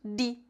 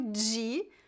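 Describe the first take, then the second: First: It is said in the Recife style. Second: It is said in the São Paulo style. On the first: "em Recife, Pernambuco, eles pronunciam de" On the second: "Eu sempre digo de, pois este é o meu sotaque"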